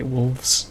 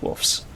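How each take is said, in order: First: The word is pronounced with careful, full articulation. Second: The word is pronounced in a relaxed, reduced way. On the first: It sounds affected. The speaker calls it wrong. "you overpronounce it" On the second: It is the common everyday way. The speaker calls it right. "most people, at least Americans, say wolves"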